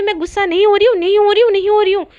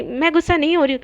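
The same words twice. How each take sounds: First: Loud, high, repeated angry denial; heated, defensive protest; flaring-up denial. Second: Restrained, huffy denial; understated acted annoyance; mild angry denial. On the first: Acted. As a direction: insist harder with each repeat. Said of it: "इतना भड़क क्यों रही हो". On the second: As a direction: deny it with a touch of temper. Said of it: "इतना गुस्सा क्यों हो रही हो".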